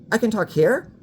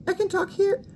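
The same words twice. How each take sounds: First: Somewhat higher, less lifted take; a second, less placed try; slightly high voice. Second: Much higher voice with a rising end on "here"; high voice demo. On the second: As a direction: talk from way up high. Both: Shown as a demonstration.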